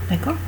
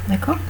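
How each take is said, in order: Both takes have the same delivery.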